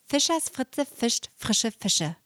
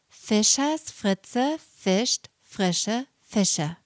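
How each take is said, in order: First: The phrase is spoken at moderate speed. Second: The phrase is spoken very slowly. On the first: "Ein bisschen schneller" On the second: "Nochmal ganz langsam"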